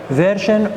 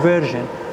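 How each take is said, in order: First: It is said in an American accent. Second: It is said in a British accent. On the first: "American pronunciation" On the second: "British pronunciation"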